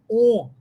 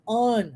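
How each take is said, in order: First: "on" with a closed Portuguese O; "on" mispronounced with a tight Portuguese o; closed vowel. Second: "on" with an open English vowel; "on" in English, mouth open on the vowel. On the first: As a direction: say "on" with a rounded, closed o. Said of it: "a pronúncia não é on, fechado". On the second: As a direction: say "on" open, close to "ahn". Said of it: "aberto, como se fosse a pronúncia do inglês". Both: Shown as a demonstration.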